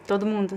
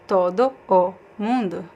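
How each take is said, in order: First: The words run together like one word. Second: Each word is pronounced separately and distinctly. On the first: "But I connect and say todo mundo" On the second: "if I say word by word"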